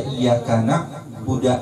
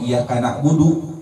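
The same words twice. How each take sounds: First: The verb ends with an 'a' vowel. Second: The verb ends with an 'u' vowel. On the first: The speaker calls it wrong. "merubah dalnya menjadi fathah" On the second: The speaker calls it right. "padahal dia bisa ngomong"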